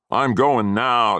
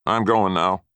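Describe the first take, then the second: First: Higher, much louder and very slow; drawn-out shout. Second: Put-on loud angry old man; angry threat. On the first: Grandfather repeating his warning to the boy, slow and shouted. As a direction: stretch out every word as a shouted threat. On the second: Grandfather warning the boy he is leaving, angry. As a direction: snap it at him as a warning. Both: A narrator's reading. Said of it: "mean, nasty threats".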